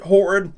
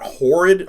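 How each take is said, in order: First: Horrid pushed higher and louder; stress on horrid. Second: Said in the usual way. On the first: Real, not acted. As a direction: hit the word horrid hard.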